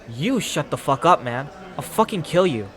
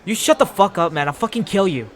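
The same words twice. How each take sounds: First: It is said mildly, without much aggression. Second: It is said with more anger and aggression. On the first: The speaker calls it wrong. "that doesn't sound like I'm aggressive" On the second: The speaker calls it right. "A little better, maybe"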